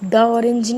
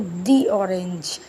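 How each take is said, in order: First: 'The' is said with a short uh vowel. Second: 'The' is said with a long ee vowel. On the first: The speaker calls it wrong. "द orange नहीं बोलेंगे" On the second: The speaker calls it right. "तो क्या बोलेंगे? दी orange"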